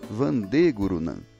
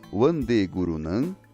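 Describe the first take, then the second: First: Vande begins with a V sound. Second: Vande begins with an English-like W sound. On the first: It follows the Sanskrit pronunciation. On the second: It follows English habits.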